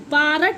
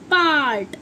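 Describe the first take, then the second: First: The r sound is pronounced strongly and fully. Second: The r sound is pronounced weakly and briefly. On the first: The speaker calls it wrong. "पार्ट नहीं होगा" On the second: The speaker calls it right. "छोटी रा की voice छोटी होगी"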